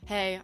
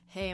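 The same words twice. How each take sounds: First: It sounds arrogant and cocky. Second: It sounds friendly and confident.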